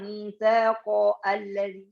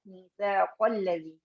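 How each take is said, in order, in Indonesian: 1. Ada hamzah yang memisahkan kedua kata. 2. Kedua kata menyambung tanpa hamzah. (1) "enggak kita bilang" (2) "dia di tengah kalimat hilang"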